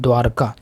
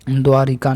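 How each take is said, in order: First: No vowel is said after the 'r'. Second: An 'i' vowel is said after the 'r'. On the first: The speaker calls it right. "नहीं द्वारका" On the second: The speaker calls it wrong. "द्वारिका नहीं"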